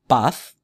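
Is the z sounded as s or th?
th. The z is said like English th. This is how it is said in Spain.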